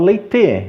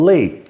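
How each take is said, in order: First: "leite" as two syllables, lei-tê; E final pronunciado. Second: "late" as one syllable ending on T; E final mudo. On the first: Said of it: "Eu não falo leite". ("leite" com E final, lei-tê) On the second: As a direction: stop "late" on the T, no vowel. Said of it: "eu falo late". ("late" sem E, numa sílaba) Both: Shown as a demonstration.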